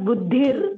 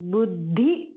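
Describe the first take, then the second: First: The word ends with an r sound. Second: The word ends on the vowel i. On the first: The speaker calls it wrong. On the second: The speaker calls it right.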